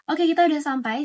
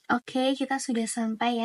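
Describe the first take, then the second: First: The words are spoken very quickly. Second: The words are spoken slowly and calmly. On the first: The speaker seems hurried and wants to be heard. The speaker calls it wrong. "intonasi berbicaranya itu sangatlah cepat" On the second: The speaker seems open to listening. The speaker calls it right. "Dan bandingkan"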